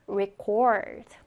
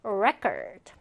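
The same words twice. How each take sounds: First: "record" as re-CORD, weak first syllable; stress on second syllable. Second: "record" as REC-ord, weak second syllable; stress on first syllable. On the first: Teacher recaps the verb pronunciation, second syllable of "record" stressed. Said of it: "자, 동사는". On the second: Teacher recaps the noun pronunciation, first syllable of "record" stressed. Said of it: "명사는 먼저 어떻게 발음한다". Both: Shown as a demonstration.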